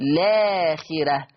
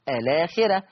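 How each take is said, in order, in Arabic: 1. تبدأ الكلمة مباشرة بصوت 'l'. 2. تبدأ الكلمة بحركة 'a' قبل اللام. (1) "حذف همزة الوصل وابتدي باللام مباشرة" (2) "لما أثبت همزة الوصل هتبقى الآخرة"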